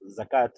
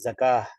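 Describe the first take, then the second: First: The word ends with a clear t sound. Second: The word ends with a soft h sound. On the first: The speaker calls it wrong. "por lo general decimos zakat, y está mal pronunciado" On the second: The speaker calls it right. "la transforma en una ja suave"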